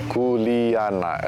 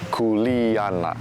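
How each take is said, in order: Both takes have the same delivery.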